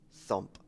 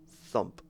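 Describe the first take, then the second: No difference in how they are said.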